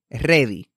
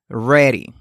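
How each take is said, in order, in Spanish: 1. La r se hace con la lengua tocando el paladar. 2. La r se hace con la lengua sin tocar nada. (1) "Algunos ejemplos de pronunciación incorrecta cuando utilizamos la R en español" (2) "La forma correcta es ready"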